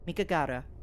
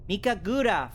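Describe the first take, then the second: First: The second-to-last syllable is said 'gah'. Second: The second-to-last syllable is said 'goo'. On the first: The speaker calls it wrong. "I keep wanting to say Gara" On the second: The speaker calls it right. "but it's Gura"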